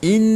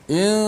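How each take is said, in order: First: The nasal n sound is clear and distinct. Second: The nasal n sound is vague and unclear. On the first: The speaker calls it right. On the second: The speaker calls it wrong. "dia dia masuk hidung tapi dia tak jelaskan apa nama sifat gunnah nun itu"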